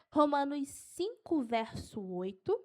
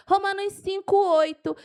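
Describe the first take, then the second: First: Slow, measured dictation; unhurried verse reference; slow for note-taking. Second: Loud, high, excited citation; fired-up preacher listing verses; carried away. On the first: Shown as a demonstration. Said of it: "Eu vou falar devagar". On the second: Real, not acted. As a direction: punch out the reference with enthusiasm. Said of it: "eu me empolgo".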